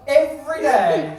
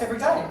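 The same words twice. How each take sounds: First: "Every" drawn out and louder; stress on Every. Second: Said in the usual way. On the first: Real, not acted. Comic aghast at daily shopping, "Every" loud and drawn out. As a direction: hit "Every" hard and stretch it slowly. Repeats phrase with heavy emphasis.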